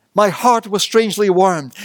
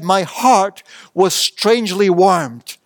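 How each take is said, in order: First: Said in the usual way. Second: Said slowly, dwelling on "heart"; slow savoured quote. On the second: Shown as a demonstration. The preacher quoting John Wesley, slow and savoured. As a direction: let "My heart was strangely warmed" unfold slowly, each word savoured. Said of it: "he said".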